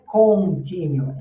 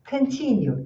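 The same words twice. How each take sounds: First: The final vowel is a lax, short sound. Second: The final vowel is a tense oo sound. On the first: The speaker calls it wrong. "E não é continue" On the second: The speaker calls it right. "esse U é um U tenso"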